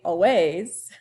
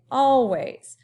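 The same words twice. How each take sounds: First: "always" with WAYS punched and rising; wrong stress. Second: "always" with a long, loud AL; stress on first syllable. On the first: Teacher showing what not to say, "always" stressed on WAYS. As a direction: throw the weight onto the end of "always". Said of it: "You say the first chunk". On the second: Teacher correcting the wrong take, "always" stressed on AL. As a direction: hit AL hard, let "ways" fall in "always". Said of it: "first chunk, all, a little bit louder". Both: Shown as a demonstration.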